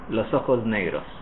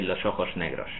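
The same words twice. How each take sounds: First: The s before negros is buzzed like z. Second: The s before negros is a voiceless hiss. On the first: "the S before the N of negros will be voiced" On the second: "if I were from Spain, I would say"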